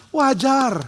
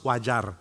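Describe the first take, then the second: First: Clapping approval. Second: Said in the usual way. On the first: Retold or imitated. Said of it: "dia tepuk tangan sambil bilang". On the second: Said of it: "dia akan bilang".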